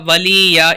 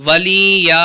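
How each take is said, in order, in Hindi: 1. स्वर लंबे खींचे जाते हैं। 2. स्वर लंबे खींचे जाते हैं।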